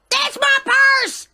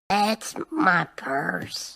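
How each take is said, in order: First: It is shouted loudly. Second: It is said quietly, without shouting.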